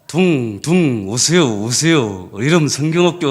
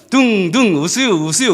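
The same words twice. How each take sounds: First: Reluctant slow call through gritted teeth; grudging through teeth. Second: Slurred half-hearted call through teeth; mumbled grudging call. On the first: Young teacher calling kids while resenting it, grudging gritted-teeth call. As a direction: drag the words out resentfully. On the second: Young teacher forcing out the invitation, mumbled and grudging. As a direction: swallow the words, barely bothering. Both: Retold or imitated. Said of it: "이를 걸면서".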